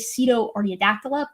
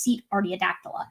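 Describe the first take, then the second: First: The first part ends in an 'oh' sound. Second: The first part ends in an 'eh' sound. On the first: The speaker calls it wrong. "I always mess up how to pronounce this. Uh, I always say" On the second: The speaker calls it right. "but it's actually just"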